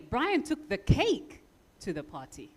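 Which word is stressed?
cake. The word cake carries the main stress. It was the cake, not something else, that was taken. "the important information is the cake"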